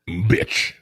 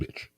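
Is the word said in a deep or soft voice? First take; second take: deep; soft. First: The word is said in a deep, forceful voice. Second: The word is said softly, with little depth. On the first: The speaker calls it right. "Put some bass in your voice. ... that's much better" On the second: The speaker calls it wrong. "Don't say it soft"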